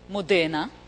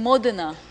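First: The stress falls on a shifted syllable. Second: The stress falls on the standard syllable. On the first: The reader decodes letters without knowing the word. The speaker calls it wrong. "he reads Modena" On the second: The reader recognizes the whole word. The speaker calls it right. "instead of reading Modena"

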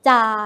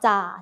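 First: The syllable is said on a level mid tone. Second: The syllable is said on a low tone. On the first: "เสียงสามัญ" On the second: "เอก"

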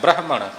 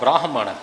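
First: The first vowel is a short a sound. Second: The first vowel is a long aa sound. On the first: "ਜਿੱਥੇ ਬੱਬੇ ਨੂੰ ਕੰਨਾ ਨਹੀਂ, ਉੱਥੇ ਪਾਠ ਬ੍ਰਾਹਮਣ ਇਉਂ ਹੋਵੇਗਾ" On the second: "ਜਿਸ ਕੰਨੇ ਦਾ ਉਚਾਰਨ ਚਰਨ ਵਿੱਚ ਅੱਧੇ ਰਾਰੇ ਦੇ ਨਾਲ ਹੋਵੇਗਾ"

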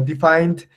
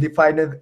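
First: The ending blends in without an extra syllable. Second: The ending is voiced as a separate syllable. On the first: The speaker calls it right. "sino defined" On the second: The speaker calls it wrong. "que no es defined"

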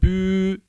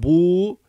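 First: The vowel is a front rounded ü. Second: The vowel is a back rounded u. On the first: "ne bü" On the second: "ne bu"

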